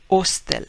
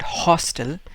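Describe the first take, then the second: First: The word begins without any H sound. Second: The word begins with an audible H sound. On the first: The speaker calls it right. "So H is silent" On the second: The speaker calls it wrong. "Not hostel"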